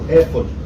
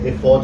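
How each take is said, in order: First: The stress is on the first syllable. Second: The stress is on the last syllable.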